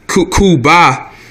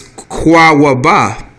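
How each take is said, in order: First: The word begins with a 'koo' sound. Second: The word begins with a 'kwa' sound. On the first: This is the common everyday form. The speaker calls it wrong. "that's how people say it" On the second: This is the original Hebrew form. The speaker calls it right. "the way you say Cuba in Hebrew is"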